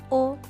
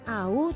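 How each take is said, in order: First: It is said as a single 'o' vowel. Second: It is said as a gliding 'ah-oo' sound. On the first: The speaker calls it right. "tetapi O" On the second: The speaker calls it wrong. "Bukan au"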